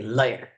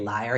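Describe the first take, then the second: First: It is said with a slight foreign accent. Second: It is said in a plain, unaccented way. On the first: "my dad had this little accent. So he wouldn't say liar. He would say liar" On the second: "he wouldn't say liar"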